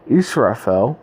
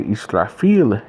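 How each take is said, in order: First: The name is said the usual English way. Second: The name is said the Arabic way.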